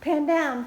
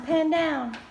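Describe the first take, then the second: First: Raised voice, directing the camera; calling out. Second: Loud repeated call, stress on "Pan". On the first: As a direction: call it out, louder. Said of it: "calling to camera to pan". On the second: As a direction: call again, hitting "Pan". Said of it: "repeats the instruction". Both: Real, not acted.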